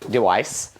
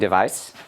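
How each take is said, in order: First: It is said German-style without a V sound. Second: It has an ordinary English V sound.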